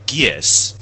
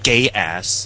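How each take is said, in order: First: The word is said as one syllable. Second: The word is said as two syllables. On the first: The speaker calls it right. "It's Gies" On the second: The speaker calls it wrong.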